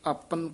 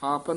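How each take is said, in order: First: The opening is said clipped and tight. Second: The opening is said loose and drawn out. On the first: The speaker calls it right. "कस के बोलना" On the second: The speaker calls it wrong. "नहीं कहना"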